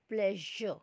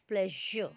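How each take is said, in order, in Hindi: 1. बीच का व्यंजन नरम 'zh' की ध्वनि है। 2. बीच का व्यंजन नरम 'zh' की ध्वनि है।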